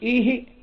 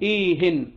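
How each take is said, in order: First: The word ends without a final n sound. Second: The word ends with a final n sound. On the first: "لا يقال إيه" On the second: "منونة"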